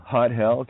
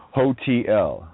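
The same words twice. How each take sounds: First: "Hot Hell" as two words, weight on "Hot", slight rise; split into Hot Hell. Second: Said in the usual way. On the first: Shown as a demonstration. Punning on hotel for listeners, stressing "Hot" in "Hot Hell". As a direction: break "Hotel" apart into "Hot Hell", leaning on "Hot".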